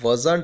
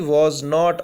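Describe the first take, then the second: First: The words are merged into one contracted word. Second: Both words are said fully and separately.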